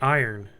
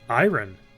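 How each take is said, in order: First: The O sound is not clearly pronounced. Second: The O sound is clearly pronounced. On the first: This is the usual everyday way. "I always say iron" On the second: This follows the spelling of the word. "there's an O in there"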